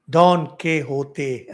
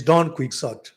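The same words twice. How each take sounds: First: Slow, loud Don Quixote, as don keh-HO-tay; Spanish pronunciation. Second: Don Quixote as don KWIK-sot; English pronunciation. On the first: Addressing my friend in jest, exaggerated Spanish Don Quixote. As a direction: draw out Quixote as keh-ho-tay, every syllable separate. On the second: Speaker's preferred way of naming him, English Don Quixote. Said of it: "I prefer calling Quixote". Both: Shown as a demonstration.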